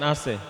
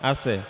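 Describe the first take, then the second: The two takes are said the same way.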